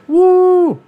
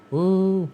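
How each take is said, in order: First: Loud, high crowd "woo"; imitated big cheer. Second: A half-hearted crowd whoop; imitated weak cheer. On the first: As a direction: whoop like a crowd going wild. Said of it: "it went Channing Tatum". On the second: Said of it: "Jennifer Garner".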